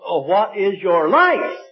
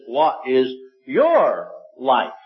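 First: The stress falls on the word life. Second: The stress falls on the word your. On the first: "With the emphasis on life" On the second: "With the emphasis on your"

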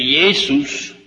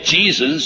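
First: The name begins with a soft Y sound. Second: The name begins with a hard J sound. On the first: The speaker calls it right. "you say Jesus" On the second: The speaker calls it wrong. "you don't say Jesus"

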